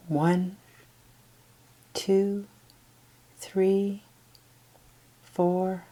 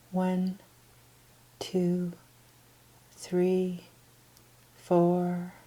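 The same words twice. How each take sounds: The two takes are said the same way.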